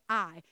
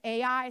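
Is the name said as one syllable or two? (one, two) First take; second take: one; two. First: The name is said as one syllable, like eye. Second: The name is said as two syllables. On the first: "Some people just pronounce it I" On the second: "Some people pronounce it Ai"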